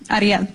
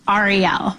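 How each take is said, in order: First: The name is said the Spanish way. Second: The name is said the Jewish way.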